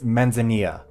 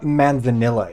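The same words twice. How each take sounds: First: The double L is said as a Y sound. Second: The double L is said as a plain L. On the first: The speaker calls it right. "A double L is an L-Y or whatever it is" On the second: The speaker calls it wrong. "it's not manzanilla"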